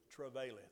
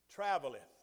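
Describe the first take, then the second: First: The middle sounds like 'vail', as in travail. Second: The middle sounds like 'vel', as in travel. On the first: The speaker calls it wrong. "for 60 years I've pronounced that word" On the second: The speaker calls it right. "That's not the word travail. You know what that word is? It's traveleth"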